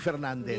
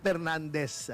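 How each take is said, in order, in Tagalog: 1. Nagsisimula ang pangalan sa tunog na F. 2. Nagsisimula ang pangalan sa tunog na P.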